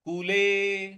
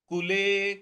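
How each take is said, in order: No difference in how they are said.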